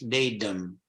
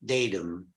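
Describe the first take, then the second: First: It is said with an American pronunciation. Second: It is said with an American pronunciation.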